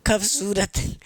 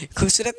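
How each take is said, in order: First: खूबसूरत with a short neutral a, kha-bsurat; खूबसूरत, first vowel a short uh; the corrected खूबसूरत, uh in the first syllable; khabsurat with a. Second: खूबसूरत said with a full u sound; खूबसूरत, first vowel a rounded u as in khoob; the rejected खूबसूरत, u in the first syllable; khoobsurat with u. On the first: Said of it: "खूबसूरत नहीं". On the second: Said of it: "नहीं, नहीं, नहीं, खूबसूरत नहीं". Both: Shown as a demonstration.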